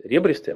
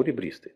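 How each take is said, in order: First: «ребристый» stressed on the opening РЕ; stress on first syllable. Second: «ребристый» stressed on БРИ; stress on second syllable. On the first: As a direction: say «ребристый» as РЕбристый, first vowel a clear E. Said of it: "я могу произносить". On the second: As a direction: say «ребристый» as реБРИстый, first vowel reduced to I. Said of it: "а могу". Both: Shown as a demonstration.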